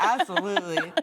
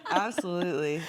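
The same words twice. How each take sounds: First: Laughing through the word, louder. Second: Said in the usual way. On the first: Real, not acted. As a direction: chuckle it out happily. Agreeing while laughing.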